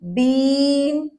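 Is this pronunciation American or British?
British. It is said with a British accent.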